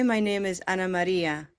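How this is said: The name is said with a Spanish pronunciation. "Which is English and then Spanish and then English"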